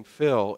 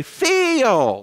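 First: Said in the usual way. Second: "Phil" stretched into two syllables, starting high and falling; "Phil" split into two syllables with a high falling tune. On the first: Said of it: "in two syllables". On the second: Retold or imitated. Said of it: "like that".

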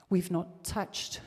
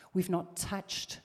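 No difference in how they are said.

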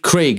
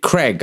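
First: Said in the usual way. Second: "Craig" said as Creg, short e; short-vowel "Craig", like Creg; North American Craig. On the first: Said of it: "they can't say Craig properly". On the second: Retold or imitated. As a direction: say "Craig" to rhyme with leg. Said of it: "They fucking pronounce it Craig".

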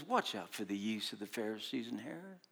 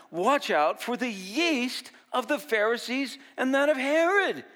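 First: Low, soft, hushed warning; a quiet, grave warning. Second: High, loud warning cry; urgent warning to the disciples, high and loud. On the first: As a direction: murmur it under the breath. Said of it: "Jesus says". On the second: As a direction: call out the warning, rising. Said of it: "Jesus warned them". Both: Retold or imitated.

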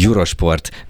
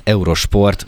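First: Eurosport said the English way, yoo-ro-shport; English pronunciation. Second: Eurosport said the Hungarian way, ay-oo-ro-shport; Hungarian pronunciation. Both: Shown as a demonstration. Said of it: "Ma már itthon úgy mondjuk".

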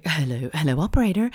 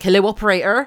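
First: Lightly put-on American hello; American accent. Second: Loud mock West Country Wurzel burr; Wurzel accent. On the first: Mimicking a caller to the operator, accidental American accent. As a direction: slip into a bit of American. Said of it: "I don't know why I went American". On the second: Correcting her phone-call mimicry, Wurzel accent. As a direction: do a rustic Wurzel accent, louder. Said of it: "a bit more Wurzel, like".

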